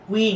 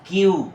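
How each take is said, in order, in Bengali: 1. এটি দুটি সিলেবলে বলা হয়, koo-ee। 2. এটি একটি সিলেবলে বলা হয়, kyoo। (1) "এটা কুই না।" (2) "এটা হবে কিউ"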